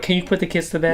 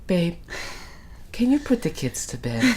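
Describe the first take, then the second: First: It is said in a mean, annoyed tone. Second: It is said in a sweet, gentle tone.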